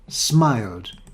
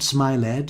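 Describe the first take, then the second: First: The ending is a single d sound. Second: The ending is said as an extra syllable. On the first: The speaker calls it right. "the ending is pronounced d" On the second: The speaker calls it wrong. "not smiled"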